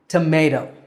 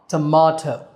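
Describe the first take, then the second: First: The middle syllable sounds like 'may'. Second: The middle syllable sounds like 'ma'. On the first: This is the American pronunciation. "For Americans, that syllable is may" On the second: This is the British pronunciation. "And for Brits, it's ma"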